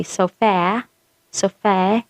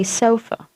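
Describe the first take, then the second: First: "sofa" ending in a flat-a vowel, so-FAE; wrong pronunciation. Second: "sofa" stressed first, ending in a short schwa; correct pronunciation. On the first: Teacher shows what not to say, "sofa" as so-FAE. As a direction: end "sofa" on the vowel of cat, rising. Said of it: "you don't say sofa". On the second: Teacher corrects the wrong version, "sofa" with weak schwa ending. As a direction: say SO-fuh for "sofa". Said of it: "You say sofa". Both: Shown as a demonstration.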